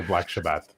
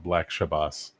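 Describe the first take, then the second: First: "Shabbat" ending in a hard t; corrected pronunciation. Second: "Shabbos" ending in an s sound. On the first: Correcting the rap group's name, "Shabbat" with final t. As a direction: say "Shabbat" as shah-baht, final t. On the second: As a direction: say "Shabbos" as shah-bus, with final s. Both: Shown as a demonstration.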